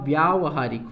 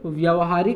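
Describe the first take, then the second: First: The first vowel is long. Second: The first vowel is short. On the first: The speaker calls it right. "होगा" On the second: The speaker calls it wrong. "नहीं होगा"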